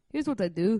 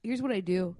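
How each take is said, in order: First: Playful Irish lilt on "Here's what I do"; Irish accent. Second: Said in the usual way. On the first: Pretend. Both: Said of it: "now we're Irish".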